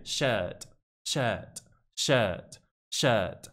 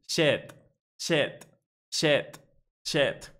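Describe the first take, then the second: First: "shirt" low, with long schwa and no R; correct British schwa. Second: "shirt" as a short "shet", no R; wrong British "shet". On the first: Teacher shows the right British version, long schwa shirt. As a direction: say "shirt" as a lengthened "shuht". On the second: Teacher shows the British mistake, "shet" for shirt. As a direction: say "shirt" with a clipped E and no R. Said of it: "Mal, ¿verdad?". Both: Shown as a demonstration.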